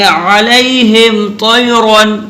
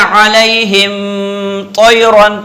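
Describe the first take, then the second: First: "अलैहिम तैरन" chanted with a short meem, no break; direct joined recitation. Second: "अलैहिम" ending in a long hummed m, break, then "तैरन"; wrongly held meem. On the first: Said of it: "direct पढ़ेंगे". ("अलैहिम तैरन" मीम पर रुके बिना पढ़ें) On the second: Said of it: "अगर किसी ने ऐसे पढ़ दिया". ("अलैहिम" की मीम खींच कर, रुक कर "तैरन") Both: Shown as a demonstration.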